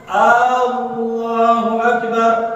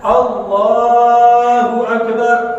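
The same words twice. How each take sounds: First: The opening vowel is drawn out long. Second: No vowel is lengthened; all sounds are short. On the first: It asks whether God is great. The speaker calls it wrong. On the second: It states that God is great. The speaker calls it right.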